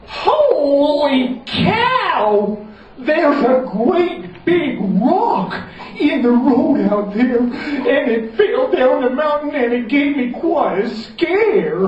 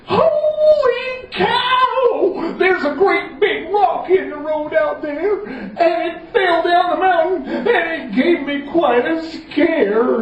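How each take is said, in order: First: Higher, slow, hammed-up alarm; alarmed Common John. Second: Much higher, slow sung-out alarm; hammed-up panic; wailing Common John. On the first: Common John warns of the rock in the road, hammed-up alarm. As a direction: sell the scare to the children. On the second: Common John tells the king about the rock, sung-out panic.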